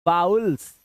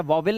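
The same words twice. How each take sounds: First: वाउल्स said firmly as "VAA-ools"; correct pronunciation of vowels. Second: वावेल with a second v, "vaa-vil"; mispronounced vowel. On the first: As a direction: stretch वाउल्स as an "ow" glide, no middle v. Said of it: "वावेल नहीं बोलना है". (वाउल्स का सही उच्चारण, बिना बीच के "व" के "वा-उल्स") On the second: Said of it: "इसको गलत प्रोनाउंस करते हैं". (वावेल का गलत उच्चारण, "वा-विल") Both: Shown as a demonstration.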